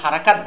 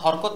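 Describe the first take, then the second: First: It is said in three syllables, ha-ra-kat. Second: It is said in two syllables, hor-kot. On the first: The speaker calls it right. "হারাকাত বলবো" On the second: The speaker calls it wrong. "হরকত না বলে"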